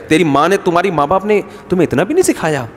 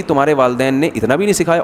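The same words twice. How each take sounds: First: Mock mother-in-law's reproach, pitch rising and falling; lightly acted scolding of a daughter-in-law. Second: Understated reproach, said at ease; calm taunt. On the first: Mother-in-law faulting the bride's upbringing, mock scolding. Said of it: "ساسیں کہہ رہی". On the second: Retold or imitated. Pious mother-in-law to daughter-in-law, calmly taunting. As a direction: imitate a pious mother-in-law's calm dig. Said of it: "بڑے آرام سے کہے گی".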